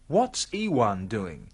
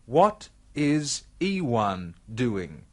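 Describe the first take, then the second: First: What is is contracted into one short word. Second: What is is said as two full words.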